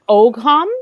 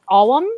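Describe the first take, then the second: First: The word is said with a hard g sound. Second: The word is said without a g sound. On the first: The speaker calls it wrong. "The word looks like ogham" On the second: The speaker calls it right. "I believe it's pronounced Awam"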